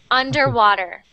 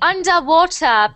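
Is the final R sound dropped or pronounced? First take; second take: pronounced; dropped. First: The final R sound is pronounced. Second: The final R sound is dropped. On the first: "for Canadian and American pronunciation, you would say that underwater" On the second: "British people say the underwater people, right? They don't really say the R"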